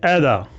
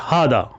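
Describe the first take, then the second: First: It begins with an 'ai' vowel and no h. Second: It begins with h and a long 'aa' vowel. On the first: This is how some other people say it. "कुछ बोलते हैं ऐदा" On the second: This is how people from Egypt say it. "जो मसर के लोग हैं वो बोलते हैं हादा"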